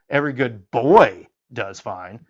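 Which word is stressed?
boy. The stress falls on the word boy.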